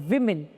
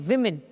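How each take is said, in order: No difference in how they are said.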